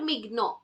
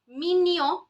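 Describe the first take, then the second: First: It does not sound like English minion. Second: It sounds like the English word minion. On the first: The speaker calls it wrong. "Nobody will pronounce it as mignon" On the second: The speaker calls it right. "as in minion"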